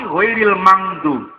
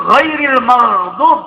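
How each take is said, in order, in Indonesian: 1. Kata ini memiliki 'ng' yang sengau sebelum 'dub'. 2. Kata ini memiliki 'gh' yang berkerongkong sebelum 'dub'. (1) "tapi ghairil mangdub" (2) "mboten ghairil maghdub"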